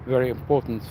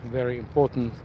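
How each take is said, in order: Both takes have the same delivery.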